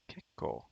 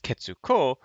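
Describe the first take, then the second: First: A held k replaces the tsu syllable. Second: The full syllable tsu is said before ko. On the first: The speaker calls it right. "then it just becomes kekko" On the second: The speaker calls it wrong. "you wouldn't want to read this as ketsuko"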